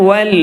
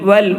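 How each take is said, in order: Both takes have the same delivery.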